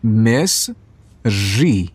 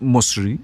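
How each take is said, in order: First: مصری stretched very slowly as /mesri/, falling; drawn out clearly, teaching each sound; slow careful pronunciation. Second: مصری said as /mosri/ with a questioning rise; questioning the child's word. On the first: Father teaches his child how to say مصری, very slow. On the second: Father repeats the child's mispronounced word, rising. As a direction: echo the kid's "mosri" back as a question. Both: Shown as a demonstration. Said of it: "بگو مصری؟".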